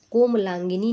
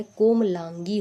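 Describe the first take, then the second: First: कोमलांगिनी with an extra "ni" at the end; the mistaken long form कोमलांगिनी; wrong ending demo. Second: कोमलांगी ending on "gee"; no "ni" after कोमलांगी; correct ending demo. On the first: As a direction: say कोमलांगिनी as "komlaangini". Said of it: "कोमलांगिनी नहीं होता है". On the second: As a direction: say कोमलांगी as "komlaangee". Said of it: "कोमलांगी होता है". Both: Shown as a demonstration.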